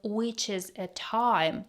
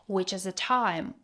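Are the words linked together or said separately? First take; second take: separate; linked. First: The words are said separately, not linked. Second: The words run together as connected speech. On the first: "Instead of which is a time" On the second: "All the words are connected"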